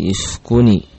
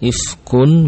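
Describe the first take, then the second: First: The word ends with an added i vowel. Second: The word ends on the n sound. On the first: "harus dibaca dengan menghidupkan tanwin. Caranya dengan mengkasrahkannya" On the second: "Ifkun menjadi"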